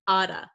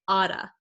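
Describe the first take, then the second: First: The T is a flap, like a D. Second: The T is a flap, like a D.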